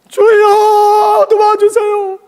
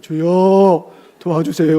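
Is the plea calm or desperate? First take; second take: desperate; calm. First: It is cried out urgently and desperately. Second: It is said calmly in a controlled voice. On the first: The one praying is in mortal danger. The speaker calls it right. "맥공강에 빠져서 죽어가고 있는데" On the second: The prayer is said with restraint. The speaker calls it wrong. "그래서 제가 연습을 했어요"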